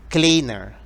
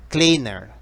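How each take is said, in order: No difference in how they are said.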